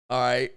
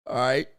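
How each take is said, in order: Both takes have the same delivery.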